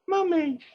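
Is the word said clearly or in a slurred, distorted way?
clearly. The word is said clearly and normally. The speaker calls it wrong. "It didn't go"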